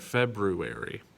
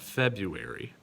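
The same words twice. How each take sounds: First: A 'ru' sound is heard after 'Feb'. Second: No 'ru' sound is heard after 'Feb'. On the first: The speaker calls it right. "You got to hear that ru in there" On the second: The speaker calls it wrong. "not February"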